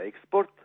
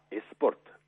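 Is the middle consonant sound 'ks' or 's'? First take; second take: ks; s. First: The middle consonants are pronounced as ks. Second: The middle consonant is pronounced as plain s.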